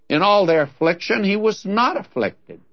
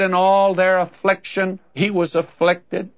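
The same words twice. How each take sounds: First: "not" leaned on, pitch falling on it; stress on not. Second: Said in the usual way. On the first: Shown as a demonstration. Preacher offering the better reading to listeners, stressing "not". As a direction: hit the word "not" in "he was not afflicted". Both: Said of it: "the better reading of that is".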